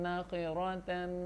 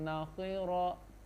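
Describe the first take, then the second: The two takes are said the same way.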